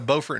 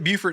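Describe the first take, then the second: First: It is said the North Carolina way. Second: It is said the South Carolina way. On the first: This is how the name is said in North Carolina. "Beaufort in North Carolina" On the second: This is how the name is said in South Carolina. "you pronounce it Beaufort in South Carolina"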